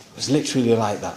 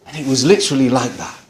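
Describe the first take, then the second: First: Softer and faster, almost to himself; quiet fast repeat. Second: Said in the usual way. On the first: Real, not acted. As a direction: drop the volume and rush the echo. Repeats the line for emphasis.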